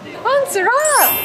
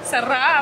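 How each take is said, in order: First: It is said in a happy tone. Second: It is said in a sad tone.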